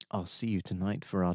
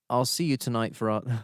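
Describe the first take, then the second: First: It is read in a low, seductive, sultry voice. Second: It is read in a plain, ordinary voice. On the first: The speaker calls it right. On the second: The speaker calls it wrong.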